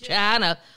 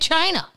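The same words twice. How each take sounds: First: It is drawn out in a Southern drawl. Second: It is said in a plain American way. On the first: This is how people in the South say it. "If you're in the South, it's got seven syllables" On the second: This is the usual everyday way. "We say China"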